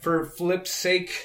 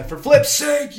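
First: Slow, drawn-out mock curse; catchphrase. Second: Higher, louder mock curse; exasperated exclamation. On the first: Friend shares his go-to swear substitute, slow and deliberate. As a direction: stretch out the tame curse slowly. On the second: Friend acts out his go-to swear substitute, loud and exasperated. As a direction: blurt the tame curse out exasperated. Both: Shown as a demonstration. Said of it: "one of my go-to lines is".

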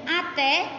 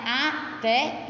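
First: Said in the usual way. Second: "Até" split into A, then té, with a pause; syllable split. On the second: Shown as a demonstration. Teacher separating syllables for the class, "Até" broken in two.

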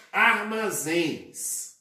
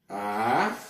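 First: Said in the usual way. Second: Syllable by syllable. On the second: Shown as a demonstration. Teacher breaking down the plural armazéns, syllable by syllable. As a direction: give each syllable of "armazéns" on its own. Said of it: "dividimos em sílabas".

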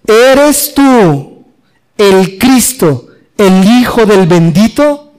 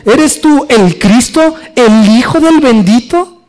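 First: Said in the usual way. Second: "tú" marcado, más lento y agudo; stress on TÚ. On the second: Shown as a demonstration. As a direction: pregunta directa, pesando "tú". (énfasis en "tú", pregunta clara y lenta) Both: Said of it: "Así claramente".

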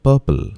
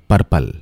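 First: "Purple" said PUH-pul without an r; careful "Purple", puh-pul; correct pronunciation. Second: "purple" said PUR-pul with a strong r; "purple" with a rolled, hard r; mispronounced "purple", pur-pul; wrong pronunciation. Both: Shown as a demonstration.

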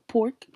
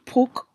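First: "pork" with the r sounded, questioning; "pork" as a doubtful question; unsure pronunciation. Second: "Pork" without the r, like "poke"; higher questioning "Pork", said as "poke"; trying another pronunciation. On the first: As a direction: try out "pork" with a clear r. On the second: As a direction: drop the r in "Pork". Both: Real, not acted. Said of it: "English was not my first language".

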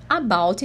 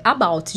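First: "about" broken into two pieces, a and bout; split syllables. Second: "about" said as one joined word; joined syllables. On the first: Teacher showing students the mistake, "about" said as two words. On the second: Teacher showing students the correct word, "about" said joined up. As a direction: run the A straight into BOUT in "about". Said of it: "é about junto". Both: Shown as a demonstration.

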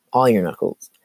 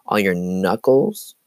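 First: Laughing through the words; amused, say it with a laugh. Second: Said in the usual way. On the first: Real, not acted. Repeats phrase, then laughs.

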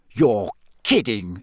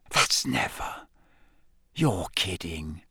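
First: Slow, stunned disbelief; voiced, drawn-out incredulity; disbelieving. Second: Slow, hushed disbelief; soft, low, awed whisper. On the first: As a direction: say it slowly, hardly believing it. Ron reacts to astonishing revelation. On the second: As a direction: whisper it slowly, stunned. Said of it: "Ron whispered". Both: A narrator's reading.

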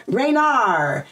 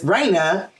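First: Raynar with an added r at the end, Ray-nar; lightly imitating how mom says the name Raynar; mom's way of saying Raina. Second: Said in the usual way. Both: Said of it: "your mom be like".

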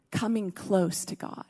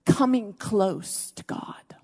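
First: Soft hushed echo. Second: Slow whisper. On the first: Preacher repeating the call to the congregation, very soft. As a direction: say it again very softly, voiced, much softer. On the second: Preacher hushing the congregation, slow whisper. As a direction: breathe it slowly, barely voiced. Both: Acted.

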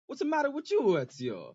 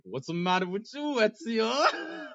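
First: Mock Italian accent, high start. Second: Raised teasing call with a cry. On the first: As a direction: ham up an Italian game voice. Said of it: "in an Italian accent". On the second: Retold or imitated. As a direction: call out in mock concern. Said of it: "So I'm like".

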